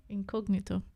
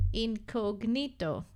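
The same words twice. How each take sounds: First: "Incognito" said with her own vowels, in-kog-nee-to. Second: "Incognito" said slowly, in-koh-gnee-to with a pure o; his incognito. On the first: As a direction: say "Incognito" the way she does. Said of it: "I like how you say incognito". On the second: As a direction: draw out "Incognito" with clean Greek vowels. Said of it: "Ah, you say incognito". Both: Shown as a demonstration.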